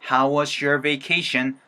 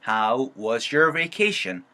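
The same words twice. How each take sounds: First: How and was blend into one smooth sound. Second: How and was are said as separate words. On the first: "이렇게 사운드가 만들어질 수가 있는 거고" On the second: "원래는 how was예요"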